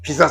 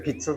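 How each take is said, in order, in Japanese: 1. 真ん中の子音は短い'z'の音です。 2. 真ん中の子音は'ts'を伸ばした音です。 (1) "ピザじゃなくて" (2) "ピッツァですよ"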